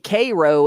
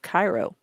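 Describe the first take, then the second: First: It is said with the local Ohio pronunciation. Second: It is said with the standard pronunciation. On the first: It is how the Ohio place name is said. "we're also allowed to say Cairo" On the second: It is how the Egyptian city is said. "instead of Cairo"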